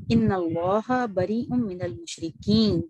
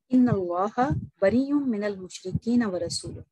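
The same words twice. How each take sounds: First: Very slow drawn-out recitation halting on "المشرکین"; stop after المشرکین. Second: Slow recitation running "المشرکین ورسولہ" together with no stop; all in one breath. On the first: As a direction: stretch the last vowel of "المشرکین" and stop there. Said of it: "یہاں پر پاز ہونا چاہیے". ("المشرکین" کو کھینچ کر اس پر وقف) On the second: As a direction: recite straight through to "ورسولہ" without pausing after "المشرکین". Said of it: "دیکھیے کیسے ایک سانس میں پڑ گئی". ("المشرکین ورسولہ" ایک سانس میں، بغیر وقف کے) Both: Shown as a demonstration.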